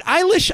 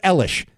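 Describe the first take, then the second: First: Eilish with a long I at the front; first syllable of Eilish like "eye"; pronounced EYE-lish. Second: Elish with a short E at the front; first syllable of Elish like the letter L; pronounced ELL-ish. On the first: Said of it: "I've heard it [name]". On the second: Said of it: "I've heard it Elish". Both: Shown as a demonstration.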